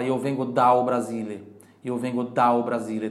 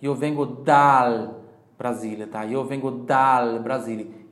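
First: Dal said as daw, L turned to U; wrong Brazilian L. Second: Dal with a clear L, slow and loud; correct Italian L. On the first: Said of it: "Não posso falar". (dal pronunciado como daw) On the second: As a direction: hit the L in dal cleanly. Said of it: "Então é dal". (dal com L claro) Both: Shown as a demonstration.

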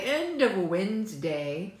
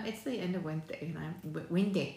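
First: Slow, deliberate "end of Wednesday"; careful retry. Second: Stumbling over "Wednesday"; tongue-tied. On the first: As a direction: get "Wednesday" out slowly and whole. Retrying the phrase after stumbling. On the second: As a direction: trip on "Wednesday", stopping at its first sound. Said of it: "I can't even get it out". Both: Real, not acted.

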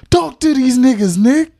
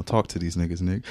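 First: High, loud hype-man shout. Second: Said in the usual way. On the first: Shown as a demonstration.

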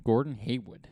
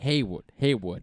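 First: Boston accent. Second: Boston accent that drops the final r, Haywood; a light Boston accent on the name. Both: Shown as a demonstration. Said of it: "I'm trying to say it like a Bostonian".

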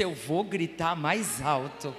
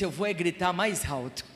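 First: Grito mais alto. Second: Said in the usual way. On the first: Retold or imitated. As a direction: lower and slower, a real shouted vow. (gritando devagar, voz mais grave) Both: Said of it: "Ele disse".

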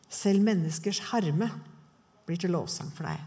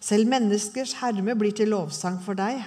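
First: "Selv menneskers herme" drawn out, with "Selv" lifted and rising; savouring the verse, slow and rising on "Selv"; slow, weighty repeat. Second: Said in the usual way. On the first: Shown as a demonstration. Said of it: "repeated verse, emphasized". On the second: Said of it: "repeats the verse slowly".

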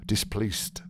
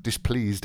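First: Displeased with a hard st ending; misread ending. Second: Said in the usual way. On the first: Real, not acted. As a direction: say displeased as dis-PLEAST. Misreads the word, then repeats it.

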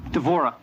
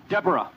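First: Devorah said the Hebrew way, with a clear v in the middle; Hebrew pronunciation. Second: Said in the usual way. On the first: Shown as a demonstration. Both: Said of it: "What does Deborah mean in Hebrew?".

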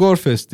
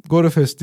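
First: the band name with a silent middle e; short pronunciation. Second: the band name with the middle e sounded; spelled-out pronunciation. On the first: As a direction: say the band name in two syllables, gor-fest. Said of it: "nasıl okunduğunu bilmiyorum". (Grup adını "gorfest" diye iki hecede okuma) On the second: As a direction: say the band name in three syllables, go-re-fest. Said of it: "diye okudum yıllarca". (Grup adını "go-re-fest" diye üç hecede okuma) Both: Shown as a demonstration.

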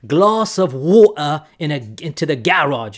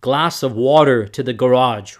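First: Exaggerated British, "garage" stressed on the first syllable; fake British accent. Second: Louder American "water" with a clear r; American English, "garage" stressed on the second syllable; American accent. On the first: Showing how Brits pronounce it differently, fake British accent. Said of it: "my fake British accent here". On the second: Contrasting with the British version, American accent. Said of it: "There's a difference there". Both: Shown as a demonstration.

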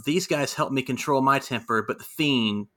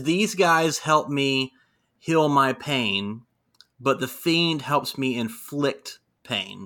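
First: Said in the usual way. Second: Slow, deliberate Bray quote; slow measured villain line; corrected slow quote. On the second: Retold or imitated. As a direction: spell it out slowly, word by word. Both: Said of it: "no, no, no, no".

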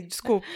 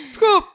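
First: Said in the usual way. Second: Desculpa yelled high and loud; shouted apology. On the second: Real, not acted. Jokingly apologising to her friend, with a high loud shout. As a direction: blurt the apology out much higher and louder.

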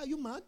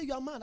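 First: "Are you mad?" softly put, with a laugh; posed as a question. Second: "you are mad" as a soft, quick statement; denied statement. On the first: Preacher retelling his question to a friend, amused question. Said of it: "I said". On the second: Preacher retelling what he denied saying, as a statement. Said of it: "I didn't say you are mad". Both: Retold or imitated.

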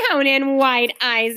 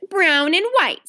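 First: Slow, drawn-out marvelling repeat; mild exclamation. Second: Put-on higher-pitched, ready child's reply; prompt answer. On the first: Friend echoes Ramona's odd answer, mildly exclaiming. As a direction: repeat it slowly, lightly amazed. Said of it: "exclaimed the friend". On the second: Little Ramona answers the lady's question, promptly. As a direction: answer straight away in a higher voice. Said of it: "said Ramona promptly". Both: A narrator's reading.

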